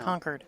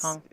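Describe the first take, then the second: First: The R sound is clearly pronounced. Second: The R sound is dropped. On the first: "No, you don't say the R" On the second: "you don't say the R"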